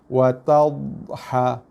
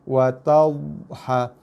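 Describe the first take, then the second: No difference in how they are said.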